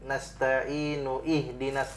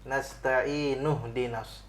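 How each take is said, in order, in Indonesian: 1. Hamza pada ihdina dibaca setelah nasta'inu. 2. Hamza dihilangkan, langsung tersambung ke dina. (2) "tapi nasta'inu dinas"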